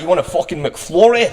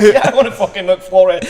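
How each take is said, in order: First: Mock aggressive Scottish voice, pitched up; Scottish accent. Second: Laughing through the reply, pitched up and a bit louder. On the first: Mimicking a Scottish guy from a video, aggressive Scottish accent. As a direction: imitate a Scottish guy barking an offer. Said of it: "I saw this guy". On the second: Retold or imitated. Answering the Scottish guy's offer, laughing. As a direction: answer back with giggles in the voice. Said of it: "And I was like".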